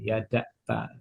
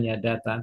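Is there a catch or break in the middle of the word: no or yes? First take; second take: yes; no. First: A brief throat catch breaks the word's middle. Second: The word runs smoothly with no catch inside. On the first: "tapi ada juga yang kayak ini ... Kayak ada k tapi bukan k" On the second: "Ada ada yang silent"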